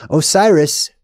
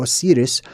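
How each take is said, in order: First: Osiris said as "oh-SIGH-riss"; long "eye" in the stressed middle of Osiris; common English pronunciation. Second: Osiris said as "oh-SEE-riss"; long "ee" and a tapped r in Osiris; alternative pronunciation. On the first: Host offering the first of two name readings, English pronunciation. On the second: Host offering another reading of the god's name, alternative pronunciation. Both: Shown as a demonstration. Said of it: "or Osiris".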